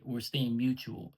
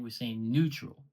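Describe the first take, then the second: First: "mutual" said slowly and mockingly in place of neutral; mock the misused word "mutual", drawn out; mocked wrong word. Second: "neutral" said slowly and clearly as the correction; correct word. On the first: Mocking a rival's misused word, slow sneer. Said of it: "than to say". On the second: Shown as a demonstration. Correcting a rival's English, slow and pointed. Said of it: "instead of saying".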